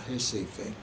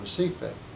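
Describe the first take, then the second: First: The name is said the Brazilian Portuguese way. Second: The name is said in an American English way.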